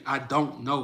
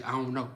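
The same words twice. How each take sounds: First: "I don't know" with each word separate and the "don't" fully sounded; "don't" with its d and t clearly articulated; fully pronounced "don't". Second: "I don't know" run together as "I'on know"; casual "I'on know" elision of "I don't know"; slurred Southern "don't". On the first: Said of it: "We ain't gonna say". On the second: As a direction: drop the d and t of "don't", sliding into "know". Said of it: "We gonna say". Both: Shown as a demonstration.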